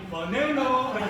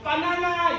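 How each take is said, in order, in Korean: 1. 영어식으로, buh-NAN-uh라고 발음해요. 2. 한국식 그대로, ba-na-na라고 발음해요. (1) "외국도 많이 다녀가지고" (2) "바나나 이렇게 안 하고"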